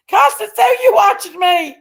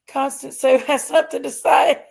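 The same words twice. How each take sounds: First: High, loud playful call to a viewer; bright teasing call, much higher and louder; excited call-out. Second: Said in the usual way. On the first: Real, not acted. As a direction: sing out her name like spotting a friend. Calling out to viewer in chat.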